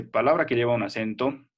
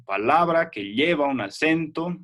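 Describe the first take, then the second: First: Said in the usual way. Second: "Palabra que lleva un acento" said slowly, joined as one flow with the weight on "lleva"; slow stress demo. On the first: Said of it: "fíjate que la U ya se ha fusionado con la A". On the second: Shown as a demonstration. Teacher slowly shows students where "lleva" takes the stress. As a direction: spell it out slowly so the class hears "lleva" carry the accent. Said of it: "el acento aquí iría en lleva".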